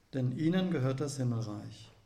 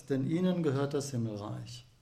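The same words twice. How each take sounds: Both takes have the same delivery.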